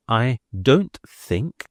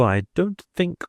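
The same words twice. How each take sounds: First: Slow down and press on "I don't think"; neat emphasis on don't think. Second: Said in the usual way. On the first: A narrator's reading. Smooth Dean to the canon, slow neat stress on "don't think". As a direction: lean neatly and slowly on "don't think". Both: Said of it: "with a very nice and neat emphasis".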